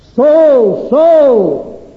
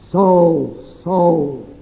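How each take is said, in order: First: It sounds commanding and full of authority. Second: It sounds grave, like a judge sentencing.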